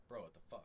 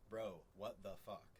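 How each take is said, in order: First: "Bro, what the fuck?" fused into two words; two-word slang blend. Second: "Bro, what the fuck?" slowly, in four separate words; word-by-word translation reading. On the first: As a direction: run "what the fuck" together as one word. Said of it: "it's almost like two words". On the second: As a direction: give each word of "Bro, what the fuck?" its own beat. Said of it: "four words together". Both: Shown as a demonstration.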